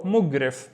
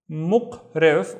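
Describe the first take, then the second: First: "mugrif" with a hard voiced g; "mugrif", slow, clear voiced g; g pronunciation. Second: "muqrif" with a back-of-throat q; "muqrif", slow, hard voiceless q; q pronunciation. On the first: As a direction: say "mugrif" with g in place of q. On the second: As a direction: say "muqrif" with q in place of g. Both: Shown as a demonstration. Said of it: "both would work".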